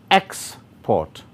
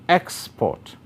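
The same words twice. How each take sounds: First: The stress is on the first syllable. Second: The stress is on the first syllable.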